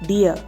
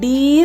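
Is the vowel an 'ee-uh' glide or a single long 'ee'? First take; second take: glide; long ee. First: The vowel glides from 'ee' into 'uh'. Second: The vowel is a single long 'ee' sound. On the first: The speaker calls it right. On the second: The speaker calls it wrong. "ഡീർ എന്ന് വായിക്കരുത്"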